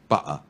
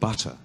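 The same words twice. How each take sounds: First: The middle t is replaced by a glottal stop. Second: The middle t is pronounced as a clear t. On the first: This is how Londoners speaking Cockney say it. "in Cockney, we say butter" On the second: This is how it is said outside Cockney. "Not butter"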